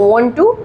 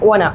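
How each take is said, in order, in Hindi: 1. दो पूरे, अलग-अलग शब्दों की तरह बोला जाता है। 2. एक संक्षिप्त, आपस में मिले हुए शब्द की तरह बोला जाता है। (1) "like want to in the form of the contraction" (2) "becomes like wanna"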